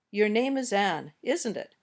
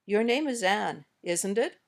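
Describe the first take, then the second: First: "isn't it" goes down, just double checking; falling tag intonation. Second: "isn't it" goes up, unsure of the answer; rising tag intonation. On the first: Teacher models already knowing the answer, falling tag. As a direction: drop "isn't it", expecting a yes. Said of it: "When we use falling intonation". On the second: Teacher models not knowing the answer, rising tag. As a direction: raise "isn't it", really asking. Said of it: "When we use rising intonation". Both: Shown as a demonstration.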